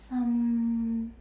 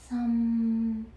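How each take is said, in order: No difference in how they are said.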